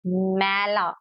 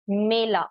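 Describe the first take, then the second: First: "मैला" with an open, held ai as in "cat"; ऐ vowel. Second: "मेला" with a closer ay sound; ए vowel. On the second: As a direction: keep the first vowel of "मेला" as ay. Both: Shown as a demonstration. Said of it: "pronounce करने का तरीका थोड़ा different".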